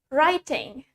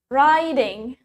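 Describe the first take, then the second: First: It is said in a British accent. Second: It is said in an American accent. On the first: "From British" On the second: "Now American"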